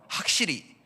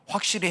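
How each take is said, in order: First: It is said in Gyeongsang dialect pronunciation. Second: It is said in standard Seoul pronunciation. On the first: The speaker is from Gyeongsang. The speaker calls it wrong. "그러면 안 되는 겁니다. 아 그러면 이 서울 사람이 아니고 경상도 사람이구나" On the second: The speaker is from Seoul. The speaker calls it right. "확실히 해봐라"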